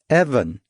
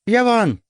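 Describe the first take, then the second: First: The name starts directly with a vowel sound. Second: The name starts with an added consonant sound. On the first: The speaker calls it right. "Not Yevon, I said patiently" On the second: The speaker calls it wrong. "Dong had so far prefaced my name with several consonants"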